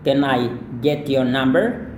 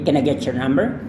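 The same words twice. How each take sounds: First: The words are said separately, without linking. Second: The words run together, with linked sounds. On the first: "ada dua" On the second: "kalau Anda mau lebih lancar, sekali lagi sambungkan can I, dan get your ini juga disambungkan"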